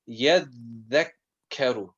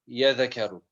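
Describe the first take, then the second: First: The dal and kaf are held long. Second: The dal and kaf are said short. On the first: The speaker calls it right. "on the dal and the kaf I'm putting a lot more emphasis" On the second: The speaker calls it wrong. "I don't say"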